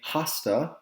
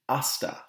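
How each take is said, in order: First: The initial h is pronounced aloud. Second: The initial h is silent. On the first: The speaker calls it wrong. "We don't say hasta" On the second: The speaker calls it right. "we say hasta luego"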